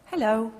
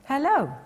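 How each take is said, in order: First: Short, light hello and done; a quick passing hello to the cat; brief greeting. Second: Eager chatty greeting. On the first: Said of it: "talking to is a brief greeting". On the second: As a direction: greet the cat like you want a chat. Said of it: "in order to talk to a cat constantly". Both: Shown as a demonstration.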